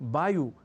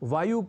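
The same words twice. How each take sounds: First: The word begins with a b sound. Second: The word begins with a v sound. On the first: The speaker calls it wrong. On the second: The speaker calls it right.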